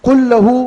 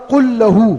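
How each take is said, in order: The two takes are said the same way.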